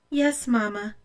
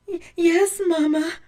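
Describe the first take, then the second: First: Said in the usual way. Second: High, loud sobbed reply with catching breath; sobbing. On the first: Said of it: "answered Blanche". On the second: A narrator's reading. Blanche answers her mother, sobbing. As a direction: stammer it through tears.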